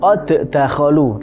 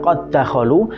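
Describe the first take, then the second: First: The first d is released separately. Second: The first d merges into the second d. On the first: The speaker calls it wrong. "Harusnya kan" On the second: The speaker calls it right. "tapi dibaca ... karena dal yang pertama masuk ke huruf dal yang kedua"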